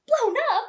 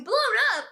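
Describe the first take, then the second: First: High, loud disbelieving cry of blown up; shocked cry. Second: Said in the usual way. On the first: Retold or imitated. Reader voicing Harry's shock at the news, loud and high. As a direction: blurt it out in shock.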